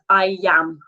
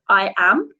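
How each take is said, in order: First: The two words are linked together. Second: The two words are said separately. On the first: The speaker calls it right. "if I say that naturally, it goes I am" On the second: The speaker calls it wrong. "it doesn't go I am"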